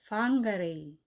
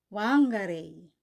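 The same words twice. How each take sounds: First: The word begins with an F sound. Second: The word begins with a W sound. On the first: The speaker calls it right. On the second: The speaker calls it wrong.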